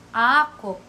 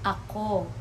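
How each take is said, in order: First: The stress is on the first syllable. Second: The stress is on the second syllable. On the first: It means mine. "the stress will be on the first syllable" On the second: It means I or me. "the pronoun I or me, it's pronounced as ako"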